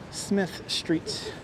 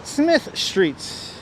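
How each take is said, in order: First: A soft breathy whisper of the street name. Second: Said in the usual way. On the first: Shown as a demonstration. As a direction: whisper "Smith Street" under your breath.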